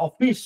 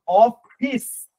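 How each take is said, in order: First: Higher-pitched অফিস ending in sh; Bengali pronunciation. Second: অফিস drawn out, ending in a long hissed s; English pronunciation. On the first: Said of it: "আর বাংলায় কেমন?". (অফিস-এর শেষে বাংলা 'শ' ধ্বনি) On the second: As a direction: stretch অফিস slowly, with an English s at the end. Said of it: "এটা উচ্চারণ ইংলিশে কেমন?". (টেনে বলা অফিস, শেষে ইংরেজি 'স') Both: Shown as a demonstration.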